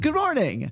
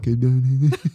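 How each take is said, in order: First: It is said with a clear, normal voice. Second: It is said with a rough, guttural voice.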